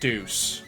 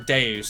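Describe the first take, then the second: First: It sounds like the English word 'deuce'. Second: It does not sound like the word 'deuce'. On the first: "I say Deuce because Deuces" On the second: "however you're supposed to pronounce it"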